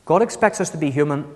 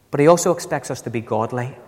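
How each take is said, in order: First: Said in the usual way. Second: Also lifted with a rise; stress on also. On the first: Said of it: "And God expects us to be human". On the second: Shown as a demonstration. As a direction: lean on also. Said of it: "let me also say something else".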